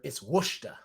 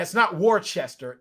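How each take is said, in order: First: Worcester said as "WUSH-ta"; lower, softer Worcester in two syllables; local New England pronunciation. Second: Worcester said as "WOR-chester", three syllables; Worcester with full R and "chester"; spelling pronunciation. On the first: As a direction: drop the R in Worcester, say "Wushta". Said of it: "so I can say Worcester". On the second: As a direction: sound out every part of Worcester. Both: Shown as a demonstration.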